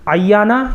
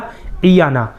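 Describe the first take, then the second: First: The first vowel is a, before a doubled y. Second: The first vowel is i. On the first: It means a woman who casts the evil eye. The speaker calls it wrong. "या के ऊपर तशदीद के साथ" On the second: It is suitable as a girl's name. The speaker calls it right. "आइन के नीचे ज़ेर के साथ"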